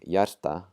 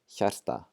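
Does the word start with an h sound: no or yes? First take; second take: no; yes. First: The word starts without any h sound. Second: The word starts with a breathy h sound. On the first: The speaker calls it wrong. "ignoring the H and just saying hjarta" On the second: The speaker calls it right. "we're going to pronounce the H"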